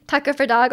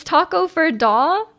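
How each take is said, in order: First: Said in the usual way. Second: Slow "taco for da" with no hard G at the end; corrected pronunciation. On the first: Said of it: "We've been saying it wrong". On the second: Shown as a demonstration. Streamer checking Norwegian pronunciation with chat, slow questioning "taco for da". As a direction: drag out "taco for da", ending "da" on an open vowel, questioning. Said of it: "The G in taco for da".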